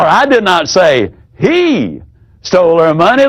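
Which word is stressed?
he. The stress falls on the word he.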